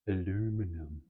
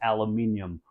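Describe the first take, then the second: First: The word is said the American way. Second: The word is said the British way. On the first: "before you hear me pronounce it as aluminum" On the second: "I did call it aluminium"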